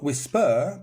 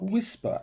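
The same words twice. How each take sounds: First: Whis-PER, rising onto the end; wrong stress on whisper. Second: WHIS-per, high start and falling; stress on first syllable of whisper. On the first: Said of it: "Not whisper". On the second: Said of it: "because it's here, not at the end". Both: Shown as a demonstration.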